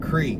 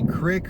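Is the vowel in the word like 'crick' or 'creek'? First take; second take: creek; crick. First: The vowel is long, rhyming with 'seek'. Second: The vowel is short, rhyming with 'brick'. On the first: "Courtney and I and Connor, we all say creek" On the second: "Do you say crick or creek? Because he says crick"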